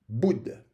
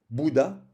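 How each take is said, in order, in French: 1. Le son vocalique final est omis. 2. Le mot se termine par un son vocalique. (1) "parfois élide le son A en fin de mot" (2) "on ne dit pas"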